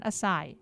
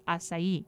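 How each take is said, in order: First: Acai said uh-SIGH, stress on the second syllable, no final E sound; the wrong way, acai as uh-SIGH; wrong pronunciation. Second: Acai said ah-sah-EE, with the final I sounded and stressed; the right way, acai ending in a stressed EE; correct pronunciation. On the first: Host shows the listener the wrong way, acai as uh-SIGH. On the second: Host corrects the listener, acai as ah-sah-EE. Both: Shown as a demonstration. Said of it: "you put the emphasis on the I".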